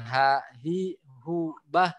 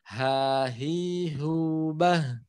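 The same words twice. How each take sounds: First: The syllables are broken up by stops between them. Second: The syllables flow together without any stops. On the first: The speaker calls it wrong. "jangan terhenti" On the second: The speaker calls it right.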